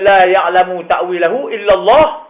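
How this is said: The phrase stops with a pause after 'Allah'.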